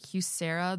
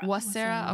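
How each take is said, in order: First: The name begins with an H sound. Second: The name begins with a W sound. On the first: The speaker calls it wrong. "I don't know if I'm pronouncing this right" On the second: The speaker calls it right. "because the H is silent"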